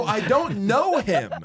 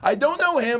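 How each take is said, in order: First: "I don't know him" said slowly and high, each word weighted; slow furious. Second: Furious yell. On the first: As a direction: drag out "I don't know him", angry and disbelieving. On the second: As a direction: blast "I don't know him" at him the second time. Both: Retold or imitated. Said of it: "I was so furious".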